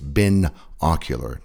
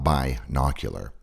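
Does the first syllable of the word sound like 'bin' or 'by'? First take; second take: bin; by. First: The first syllable sounds like 'bin'. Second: The first syllable sounds like 'by'. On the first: The speaker calls it right. "the prefix is bin, not by. It's binocular" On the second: The speaker calls it wrong. "not binocular"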